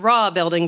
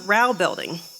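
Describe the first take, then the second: First: The name is said like the word 'raw'. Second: The name is said rhyming with 'how'. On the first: The speaker calls it wrong. "I had been calling it the Raw building" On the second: The speaker calls it right. "found out it's pronounced the Rao building"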